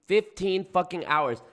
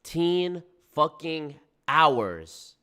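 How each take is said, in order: First: Said in the usual way. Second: Very slow, each word stretched out; drawn-out disbelief. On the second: Real, not acted. Reacting to the fifteen-hour hike, slow disbelief. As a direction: let every word hang, incredulous. Repeats the clip's figure in disbelief.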